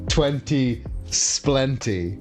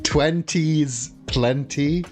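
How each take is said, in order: First: The s sound starts the second word. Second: The s sound ends the first word. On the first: "if you purposefully mispronounce it" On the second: "which doesn't rhyme"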